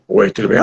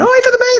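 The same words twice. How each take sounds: First: Said in the usual way. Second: Same greeting jumped way up high; absurdly mismatched voice. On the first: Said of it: "aquele desnível absurdo". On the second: Shown as a demonstration. Demonstrating a jarring switch between dub and original, absurdly high voice. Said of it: "Aquela mudança brusca de voz".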